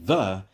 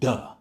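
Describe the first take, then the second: First: The word begins with a soft 'th' sound. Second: The word begins with a hard 'd' sound. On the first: The speaker calls it wrong. "instead of saying the" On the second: The speaker calls it right. "is like duh"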